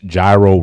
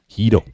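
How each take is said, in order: First: The word does not sound like hero. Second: The word sounds like hero with a y-sound. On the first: The speaker calls it wrong. "I pronounce gyro wrong" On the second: The speaker calls it right. "I know it's Hito, right?"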